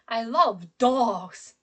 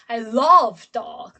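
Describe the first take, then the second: First: The stress falls on the word dogs. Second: The stress falls on the word love. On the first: Dogs are what is loved. "I pronounce the word dog stronger, higher, louder" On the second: The speaker loves dogs rather than hating them. "my stress is on love"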